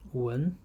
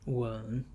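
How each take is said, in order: First: The syllable is said with the second tone. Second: The syllable is said with the third tone.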